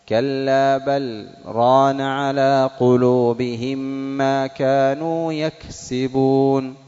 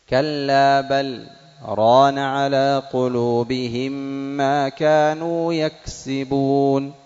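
The two takes are said the same way.

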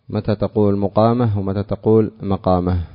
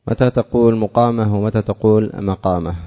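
No difference in how they are said.

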